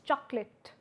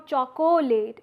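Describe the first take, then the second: First: It is said with two syllables, middle vowel dropped. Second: It is said with three syllables, middle vowel included. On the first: The speaker calls it right. "rather it's chalk late" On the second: The speaker calls it wrong. "It is no more chocolate"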